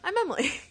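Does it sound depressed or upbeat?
upbeat. It sounds brighter and upbeat.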